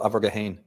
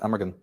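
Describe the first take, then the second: First: The name is said with an Irish pronunciation. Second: The name is said with an English pronunciation.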